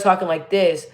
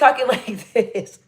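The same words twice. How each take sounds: First: The voice is deep with lots of bass. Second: The voice is higher and lighter in pitch. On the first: "I used to have a lot of bass in my voice" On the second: "I kind of talk at a higher pitch"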